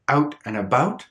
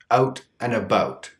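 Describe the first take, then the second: First: "Out" and "about" with a small raised ow; "Out and about" in the raised Canadian vowel; raised, schwa-like ow in "Out" and "about"; Canadian raising. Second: "out" and "about" with the raised, relaxed schwa-like ow; "out and about" with a small raised vowel; Canadian raising on "out" and "about". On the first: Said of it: "Notice that big difference". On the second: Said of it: "For example". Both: Shown as a demonstration.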